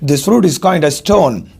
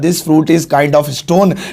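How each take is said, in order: First: 'Kind of' is blended into a short 'kinda'. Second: 'Kind of' is said fully with a clear 'of'. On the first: "British में बोलेंगे" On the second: "वैसे तो मैं बोलता"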